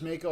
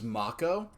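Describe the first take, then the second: First: The first vowel is an 'ay' sound. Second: The first vowel is an open 'ah' sound. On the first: This is how most people have always said it. "I'm saying it as Mako" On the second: This is how the newer version says it. "in the remake they pronounce it as Mako, ... they should have spelled it M A H K"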